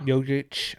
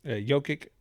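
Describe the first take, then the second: First: Jokic repeated ending in a ch sound, settled; "Jokic" said as Yo-kitch, matching the correction; corrected name. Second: Jokic said with a hard k and a questioning rise; "Jokic" ending in a k sound, asked uncertainly; unsure name. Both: Real, not acted.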